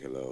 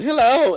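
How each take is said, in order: First: It is said in a low, deep voice. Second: It is said in a high, girlish voice.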